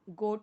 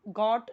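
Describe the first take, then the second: First: The vowel is a rounded 'oh' sound. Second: The vowel is an open 'aw' sound. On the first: The speaker calls it right. "ये गोट ही होगा" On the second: The speaker calls it wrong. "गॉट नहीं होगा"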